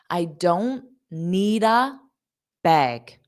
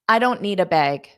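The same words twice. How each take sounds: First: The sentence is said at a slow pace. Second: The sentence is said at a fast pace. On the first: "I'll say it slow" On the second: "Now let's say it fast"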